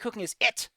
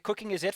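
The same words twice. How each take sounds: First: The word 'it' is said with strong emphasis. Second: The word 'it' is said without emphasis. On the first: The speaker calls it right. "You have to emphasize the line" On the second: The speaker calls it wrong. "you can't say uh"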